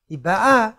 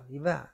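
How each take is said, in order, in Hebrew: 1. ההטעמה נופלת על ההברה האחרונה. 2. ההטעמה נופלת על ההברה הראשונה. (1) "היא באה עכשיו" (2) "הכוונה עבר"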